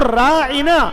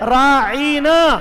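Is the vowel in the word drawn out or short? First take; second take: short; drawn out. First: The word is said with normal vowel length. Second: The word is said with a drawn-out vowel. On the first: It asks the listener to pay attention to us. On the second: It calls the listener a shepherd as an insult.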